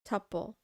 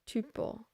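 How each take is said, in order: First: The first vowel sounds like the one in couple. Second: The first vowel sounds like the one in hoople. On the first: "tuple rhymes with couple and supple" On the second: "it rhymes with mot the hoople"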